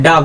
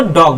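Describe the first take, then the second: First: "डॉग" said "daag", open "aa" vowel. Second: "डॉग" with a rounded "aw" vowel; students' mispronunciation. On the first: Teacher correcting students, "डॉग" with an open "aa". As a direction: say "डॉग" with a long unrounded "aa". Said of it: "क्या बोलते हैं". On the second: Teacher quoting students' mistake, "डॉग" with rounded "aw". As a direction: say "डॉग" as "dawg". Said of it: "बहुत सारे students क्या बोलते हैं". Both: Shown as a demonstration.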